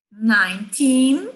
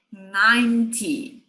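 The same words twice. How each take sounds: First: Put-on slow, loud "nineteen" rising on a long TEEN; stress on TEEN. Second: "ninety" with long, strong first syllable, falling -ty; stress on NINE. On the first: Teacher contrasting side by side, stress on TEEN. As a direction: stretch and lift the TEEN of "nineteen". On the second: Teacher contrasting side by side, stress on NINE. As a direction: hit the NINE of "ninety", drop the -ty. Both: Shown as a demonstration. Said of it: "lado a lado".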